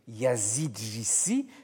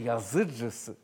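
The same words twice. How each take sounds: First: The vowels are said as a plain French i. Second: The vowels are said as the Turkish dotless i. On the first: The speaker calls it wrong. "Il ne faut pas prononcer" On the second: The speaker calls it right.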